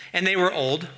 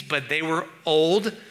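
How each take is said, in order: First: Said in the usual way. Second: Put-on old drawn out, slow and pointed; "but they were old" said slowly, punching "old"; stress on old. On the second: Shown as a demonstration. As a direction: lean on "old" with a knowing pause. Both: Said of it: "you can decide for yourself what that means".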